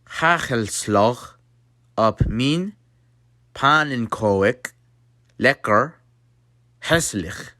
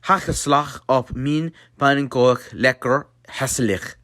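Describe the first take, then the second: First: The phrase is spoken slowly. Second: The phrase is spoken at normal speed. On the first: "So to slow it down" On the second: "it will sound like this"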